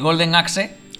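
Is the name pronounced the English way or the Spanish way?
Spanish. The name is read with Spanish sounds. It is the childhood pronunciation, before knowing English. The speaker calls it right. "suena mucho mejor"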